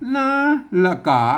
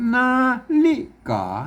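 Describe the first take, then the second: First: The middle vowel is dropped, giving two syllables. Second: The word is said with three full syllables. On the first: This is how old people used to say it. "คนเฒ่าโบราณเนี่ยแม่พวกก็อ่านพวกออกเสียงว่านาฬกา" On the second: This is the usual modern reading. "มันจะเป็นนาฬิกาใช่ไหม"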